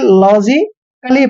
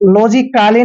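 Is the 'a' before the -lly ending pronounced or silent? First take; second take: silent; pronounced. First: The a before -lly is silent. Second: The a before -lly is pronounced. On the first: The speaker calls it right. "लॉजिकली पढ़ना है" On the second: The speaker calls it wrong. "लॉजिकली नहीं पढ़ना है"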